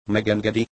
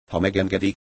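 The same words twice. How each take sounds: First: "Megengedi?" tossed back sarcastically, pitched higher; mocking. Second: Said in the usual way. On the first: A narrator's reading. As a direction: echo "Megengedi?" with a scornful rising lilt. (gúnyosan visszakérdezve: „Megengedi?”) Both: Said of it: "kérdezte gúnyosan".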